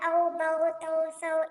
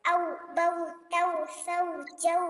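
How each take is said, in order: First: औ, बऊ, तऊ, सऊ with the vowel drawn toward o; औ, बऊ, तऊ, सऊ in the rejected way; wrong way. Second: औ, बऊ, तऊ with a clear au diphthong; correct maruf way. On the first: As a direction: demo how nobody should read बऊ, तऊ. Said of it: "कोई भी इस तरीके से नहीं पढ़ेगा". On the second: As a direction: say बऊ, तऊ, सऊ crisply with a pure au. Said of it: "इस तरीके से". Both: Shown as a demonstration.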